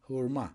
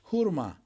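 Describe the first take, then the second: First: Said in the usual way. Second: "hurma" slowly split, hur, ma; syllable by syllable. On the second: Shown as a demonstration. Teacher answering persimmon in Turkish, "hurma" syllable by syllable. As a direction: pause between the syllables of "hurma".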